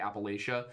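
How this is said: The word has a northern US pronunciation. The speaker is not from the southern mountains. The speaker calls it wrong.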